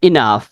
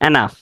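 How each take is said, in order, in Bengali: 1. শব্দটি 'ih' স্বরধ্বনি দিয়ে শুরু হয়। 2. শব্দটি 'eh' স্বরধ্বনি দিয়ে শুরু হয়। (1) "উচ্চারণটা হবে ইনাফ" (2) "আসলে উচ্চারণটা এনাফ না"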